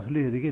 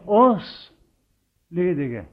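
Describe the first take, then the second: First: The word oss carries no special stress. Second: The word oss carries strong stress. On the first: The speaker calls it wrong. "Det blir ofte lest så galt" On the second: The speaker calls it right. "de sa det med den betoning, og sånn står det"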